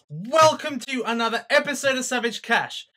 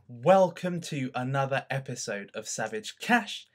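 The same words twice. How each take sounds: First: It is said loudly. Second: It is said quietly.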